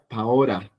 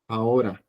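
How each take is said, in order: First: The middle consonant is a flapped R. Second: The same.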